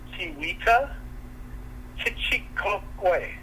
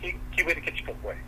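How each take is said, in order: First: The name is said slowly. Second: The name is said quickly.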